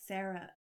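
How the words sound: The name is said with an American pronunciation. "American pronunciation would be like Sarah"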